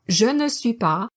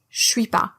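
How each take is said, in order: First: All four syllables are said in full. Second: Je fuses into sh, leaving two syllables. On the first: "the original four" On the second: "can also be pronounced as sh"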